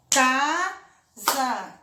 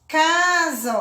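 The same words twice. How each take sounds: First: "Casa" in two beats with a gap, ca - sa; split into syllables. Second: Said in the usual way. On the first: Shown as a demonstration. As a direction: separate both syllables of "Casa". ("Casa" separado em duas sílabas: ca - sa) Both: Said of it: "Casa tem duas sílabas".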